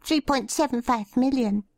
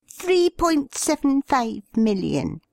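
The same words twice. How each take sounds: First: High, reedy shy man. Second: High, reedy insistent repeat. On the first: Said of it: "a reedy girl-boy voice called out". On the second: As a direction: correct her, reedy and high. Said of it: "repeated the bearded man". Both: A narrator's reading.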